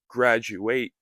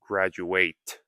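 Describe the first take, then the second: First: The T sound in the middle is silent. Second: The T sound in the middle is pronounced. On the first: "I said with a silent T" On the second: "I didn't say graduate"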